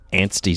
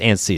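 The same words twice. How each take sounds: First: The word is said with a T sound. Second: The word is said without a T sound. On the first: The speaker calls it wrong. "Antsy sounds dumb" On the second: The speaker calls it right. "There's no T"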